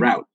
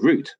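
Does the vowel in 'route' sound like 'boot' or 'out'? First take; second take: out; boot. First: The vowel sounds like the one in out. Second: The vowel sounds like the one in boot. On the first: This is how many Americans say it. "a lot of Americans say then, route" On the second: This is how people in Britain say it. "we say route"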